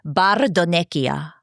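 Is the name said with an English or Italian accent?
Italian. The name is said with an Italian accent. The speaker calls it right. "I have to say it in the Italian accent"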